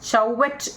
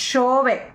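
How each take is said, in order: First: It starts with ch and ends with t. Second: It starts with sh and ends in a vowel. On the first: The speaker calls it wrong. "നമ്മൾ ചൗവറ്റ് എന്ന് വേണ്ട" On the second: The speaker calls it right. "ഷോവേ എന്നാണ് അവർ പറയും"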